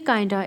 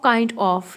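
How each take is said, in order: First: The words blend into one short word. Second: Both words are said fully and separately.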